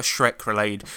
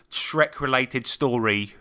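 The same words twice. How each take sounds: First: Said in the usual way. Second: "Shrek related story" stretched out slowly; jingle-like. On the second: Shown as a demonstration. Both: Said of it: "That's a jingle, by the way".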